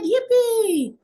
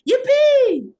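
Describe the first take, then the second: First: It is said with little energy. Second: It is said with high excited energy. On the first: The speaker calls it wrong. "You said, yippee!" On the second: The speaker calls it right. "it's not the same impact as yippee!"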